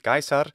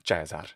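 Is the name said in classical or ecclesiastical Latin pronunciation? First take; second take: classical; ecclesiastical. First: It is said in classical Latin pronunciation. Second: It is said in ecclesiastical Latin pronunciation. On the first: "If you were using classical pronunciation, it should be Caesar" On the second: "To be consistent with the rest, it needs to be Caesar"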